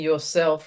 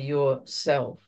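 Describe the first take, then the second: First: It is run together as one word. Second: It is split into two separate words. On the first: It means the ordinary personal self. "almost as one word" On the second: It means the higher self with a capital S. "to emphasize that it's the big S"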